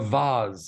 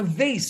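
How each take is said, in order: First: It is said with a British pronunciation. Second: It is said with an American pronunciation.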